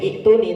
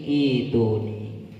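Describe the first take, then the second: First: The first vowel is short, not lengthened. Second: The first vowel is lengthened into a long vowel. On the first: The speaker calls it wrong. "tidak boleh ituni" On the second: The speaker calls it right. "tapi menjadi ituni. Bacaan apa? Mat?"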